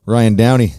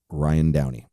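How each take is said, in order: First: Louder announcer call of the name; hype announcer. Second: Said in the usual way. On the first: Acted. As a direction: belt the guest's name like a ring announcer. Hyping up his guest's name.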